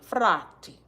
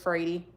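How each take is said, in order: First: The name does not rhyme with Brady. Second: The name rhymes with Brady. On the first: This is how the family's relatives in Argentina say it. "they pronounce the name properly" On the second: This is how the American family says it. "so it's Frady, like Brady"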